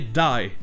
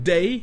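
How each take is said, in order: First: The vowel sounds close to eye. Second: The vowel is a plain ay sound. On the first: "day deviendrait die" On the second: "le son de voyelle A, comme dans day"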